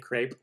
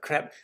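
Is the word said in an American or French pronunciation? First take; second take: American; French. First: It is said the American way, without a throaty sound. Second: It is said the French way, with a throaty sound. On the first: The speaker calls it wrong. "the American English, we say crepe, even though it's not the right way to say it" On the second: The speaker calls it right. "the French like pronunciation of it. You have to use a little bit of your throatiness"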